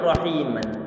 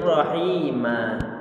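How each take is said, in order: First: The word ends with a nasal n sound. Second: The word ends with a lengthened a vowel. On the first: The reading continues without stopping. "Ada lafaz rahi rahiman" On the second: The reader stops on this word. "Saat diwakafkan maka dia ini menjadi rahima"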